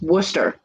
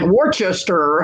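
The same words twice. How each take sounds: First: The name is said in a shortened form. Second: The name is said following its full spelling. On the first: The speaker calls it right. "because it's Worcester" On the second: The speaker calls it wrong. "they're like Worcester and we're like no"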